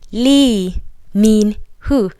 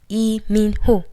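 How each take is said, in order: First: The name begins with an L sound. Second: The name begins with a vowel sound. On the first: "So everybody says Lee mean who" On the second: "It's actually written as E"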